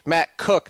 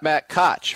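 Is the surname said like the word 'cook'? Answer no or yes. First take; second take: yes; no. First: The surname sounds like the word 'cook'. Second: The surname does not sound like 'cook'. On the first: The speaker calls it right. "Matt Cook is KOCH. Matt Cook" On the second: The speaker calls it wrong. "not Matt Koch"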